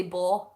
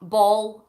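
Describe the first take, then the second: First: Ball said as baw, the L turned to a W; Scottish baw with the L dropped. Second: Said in the usual way. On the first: Shown as a demonstration. Vlogger showing the Scottish way to say ball. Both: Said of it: "I would say baw".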